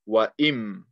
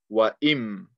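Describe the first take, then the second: First: The n sound merges into the m. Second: The same.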